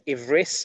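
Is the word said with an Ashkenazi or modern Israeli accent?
Ashkenazi. It ends with an s sound, Ashkenazi style.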